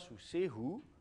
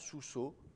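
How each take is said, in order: First: The word ends in a breathy h then u. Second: The word ends in a single o vowel. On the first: "soit sous sehu" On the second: "Avec une simple voyelle"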